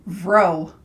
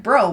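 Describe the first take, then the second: First: "vro", starting with a V sound; V in place of B. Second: Said in the usual way. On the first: Shown as a demonstration. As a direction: say "vro" with V replacing the B of bro. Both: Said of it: "but it's vro".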